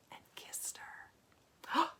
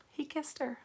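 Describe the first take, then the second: First: Slow reverent whisper; hushed whisper. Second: Gasp, then a high hushed reread; mock shock. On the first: Romantic kiss read hushed. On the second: Reader mock-shocked at the kiss. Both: A narrator's reading.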